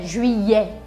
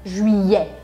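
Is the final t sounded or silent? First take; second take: silent; silent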